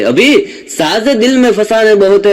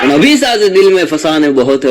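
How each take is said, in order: First: Raised recitation. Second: Said in the usual way. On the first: Shown as a demonstration.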